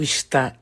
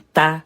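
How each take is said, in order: First: The word is said in full, two syllables. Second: The word is shortened to one syllable. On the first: "quando a gente aperta o está em tá" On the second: "quando a gente aperta o está em tá"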